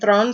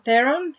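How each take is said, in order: First: The surname is said the South African way. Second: The surname is said the common English way. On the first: The speaker calls it right. "it's actually Thron" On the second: The speaker calls it wrong. "we say Theron"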